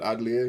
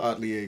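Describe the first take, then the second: First: The middle consonant is a D sound. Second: The middle consonant is a T sound. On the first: The speaker calls it right. "you pronounce it with a D" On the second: The speaker calls it wrong. "not a T"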